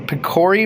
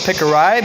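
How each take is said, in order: First: The name is said the way most people say it. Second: The name is said with a southern pronunciation. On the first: This is how most people say the name. The speaker calls it right. "I've heard a lot of people call it the Picori blade" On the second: This is the speaker's own regional mispronunciation. The speaker calls it wrong. "I call it Pickerai because I'm from the south"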